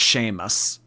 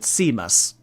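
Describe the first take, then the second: First: The name is said in its usual established way. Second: The name is said as its letters suggest. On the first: "I do know that that's pronounced Seamus" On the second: "for someone who like isn't around that name ... to pronounce it Seamus"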